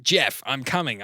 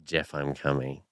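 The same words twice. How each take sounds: First: Drawn-out, understated Ayoade voice; lightly imitating Richard Ayoade; Richard Ayoade impression. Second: Lower, understated deadpan echo; lightly voiced Ayoade line; Richard Ayoade impression. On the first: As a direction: slowly deliver a sitcom line as Ayoade. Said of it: "What's a line from that?". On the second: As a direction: say it low, barely changing your own voice. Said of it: "do sound like".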